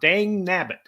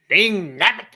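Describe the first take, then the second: First: It is said in his normal voice. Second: It is said in a Yosemite Sam voice.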